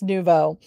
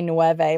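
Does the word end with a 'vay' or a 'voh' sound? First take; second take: voh; vay. First: It ends in a 'voh' sound, like French. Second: It sounds like Spanish nueve, ending in 'vay'. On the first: The speaker calls it right. "And I think it's Nouveau" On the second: The speaker calls it wrong. "I used to say Nueve, like the number"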